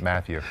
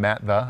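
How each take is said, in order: First: The name ends in a 'thew' sound. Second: The name ends in a short 'the' sound. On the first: The speaker calls it right. "or is it Matthew?" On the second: The speaker calls it wrong. "Is your brother's real name Matt the"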